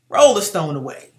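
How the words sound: It is said in a forceful, angry tone. Jesus is angry. The speaker calls it right. "the scripture said he was angry. That's why I said it that way"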